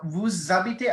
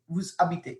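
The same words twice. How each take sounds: First: The two words flow together with a linking sound. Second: The two words are split by a stop. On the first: The speaker calls it right. "listen to how I'm saying vous habitez" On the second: The speaker calls it wrong. "it doesn't really flow. It's like a stop"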